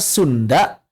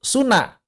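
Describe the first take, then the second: First: The d sound after the n is kept. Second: The d sound after the n is dropped.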